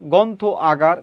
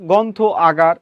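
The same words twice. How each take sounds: The two takes are said the same way.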